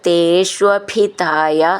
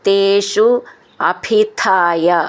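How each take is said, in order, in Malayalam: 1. രണ്ടു വാക്കുകളും ചേർന്ന് ഒരു വാക്കാകുന്നു. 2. രണ്ടു വാക്കുകളും വേറെ വേറെയായി പറയുന്നു.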